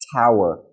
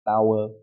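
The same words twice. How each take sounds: First: The first T is said with a strong puff of air. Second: The first T is said without a puff of air. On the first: The speaker calls it right. "but tower. ... give it more force and more uh, energy" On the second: The speaker calls it wrong. "Not tower"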